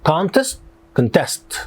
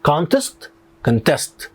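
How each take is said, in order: The two takes are said the same way.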